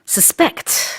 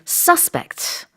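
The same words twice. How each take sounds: First: The stress is on the second syllable. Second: The stress is on the first syllable. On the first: It is the verb, to suspect. "강세가 뒤에 있을 때는 동사입니다" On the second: It is the noun, a suspect. "강세가 앞에 있을 때는 명사예요"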